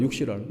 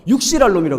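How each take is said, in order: First: Said in the usual way. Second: Put-on "육실할 놈" spat out as an old-fashioned insult; "육실할 놈" flung out lightly in the manner of old-timers; old-timer's curse. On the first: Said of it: "육실할 놈 뭔지 아세요". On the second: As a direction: imitate an old-timer cursing someone. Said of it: "옛날 사람들은".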